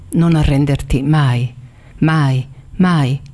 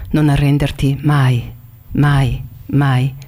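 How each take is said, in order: The two takes are said the same way.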